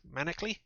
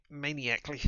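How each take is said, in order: First: Manically short, MAN-ick-lee, asked with a rise. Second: Maniacally with a long ay, mane-ee-AK-lee. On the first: Reader correcting herself, trying Manically. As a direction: try Manically as MAN-uh-klee, questioning. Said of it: "Manically would be better". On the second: Reader fumbling the word, saying maniacally. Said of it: "Manically would be better than maniacally". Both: Shown as a demonstration.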